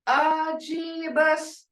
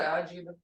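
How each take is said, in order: First: The greeting is said warmly, with feeling. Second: The greeting is said flatly, without feeling. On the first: It comes across as a welcome. The speaker calls it right. "Hear that tone?" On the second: It does not come across as a welcome. The speaker calls it wrong. "That don't sound that don't sound welcoming"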